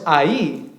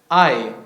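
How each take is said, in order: First: The stress falls on the final i. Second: The stress falls on the a, one syllable. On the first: The speaker calls it wrong. "no es ahí" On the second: The speaker calls it right. "no tiene acento en la I, es un diptongo"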